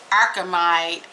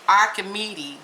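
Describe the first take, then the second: First: Archimede said ar-kuh-MIDE, ending like "tide"; first go at Archimede, ending in a long "ide" sound; trying the name. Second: Archimede said ar-kuh-MEE-tee, with an extra ending; second try at the name. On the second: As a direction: Archimede with a trailing "tee" added at the end. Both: Shown as a demonstration. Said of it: "or Archimede".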